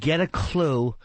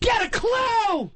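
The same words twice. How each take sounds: First: It is said flatly, without emphasis. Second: It is exclaimed with excited emphasis.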